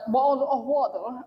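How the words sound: It is said in a British accent. "in British it sounds like"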